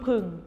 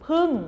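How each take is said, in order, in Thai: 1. พยางค์นี้มีเสียงต่ำ 2. พยางค์นี้มีเสียงตก (1) "เอก" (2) "โท"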